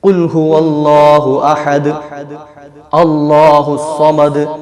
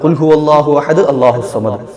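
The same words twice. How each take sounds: First: There is a pause after ahad before allahu. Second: Ahad runs straight into allahu without a break. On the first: The speaker calls it right. "നിർത്തി നിർത്തി ഓതാം" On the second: The speaker calls it wrong. "കൂട്ടി ഓതിയതാണ്, ശ്വാസം വിടുന്നില്ലല്ലോ"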